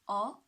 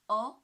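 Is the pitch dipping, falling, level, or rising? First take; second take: rising; rising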